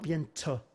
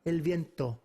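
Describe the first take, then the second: First: "viento" with a hissy, sibilant T. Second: "viento" with a crisp T, no sibilance. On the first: Teacher shows students what to avoid, sibilant T in viento. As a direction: smear the T of "viento" into a ts. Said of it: "no kind of sibilance in there". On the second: Teacher shows the right viento, with a crisp T. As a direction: say "viento" with T tapped behind the teeth. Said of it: "It's not viento". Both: Shown as a demonstration.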